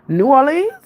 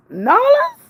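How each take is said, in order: First: Said in the usual way. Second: "New Orleans" as a high, drawn-up "Nawlins?"; New Orleans accent. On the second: Retold or imitated. Streamer showing chat the local accent, New Orleans "Nawlins".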